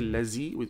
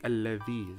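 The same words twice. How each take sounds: First: The middle consonant sounds like a z. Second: The middle consonant sounds like th in the. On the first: The speaker calls it wrong. "We don't say الذي. Z" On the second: The speaker calls it right. "We say الذي. The"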